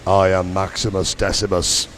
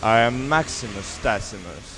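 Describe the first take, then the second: First: Very deep booming movie-hero voice; low, solemn line for him to repeat; Gladiator impression. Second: Deep hero voice, repeating after him; Gladiator impression. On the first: Shown as a demonstration. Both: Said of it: "after me".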